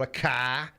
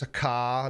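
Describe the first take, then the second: First: CAR with a New England drawn-out open vowel; New England accent. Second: Said in the usual way. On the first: Shown as a demonstration. Streamer showing how New Englanders say car, imitated New England accent. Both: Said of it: "the way they say things".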